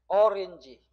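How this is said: The word is said with English-like vowels. This is the original foreign pronunciation. "실제 발음은 어린지"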